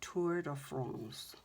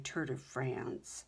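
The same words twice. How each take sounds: First: It is said with a put-on French accent. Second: It is said with a plain English accent. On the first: The speaker calls it right. "like you know French or something" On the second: The speaker calls it wrong. "You don't say Tour de France"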